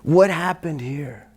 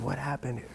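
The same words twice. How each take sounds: First: Slow, unvoiced out-of-breath whisper; barely any air left to ask; breathless whisper. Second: Much softer, spent question; quietly asking, still worn out. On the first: Exhausted student asking teacher what happened, whispered. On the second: Retold or imitated. Tired student asking teacher again, softly. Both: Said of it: "I said".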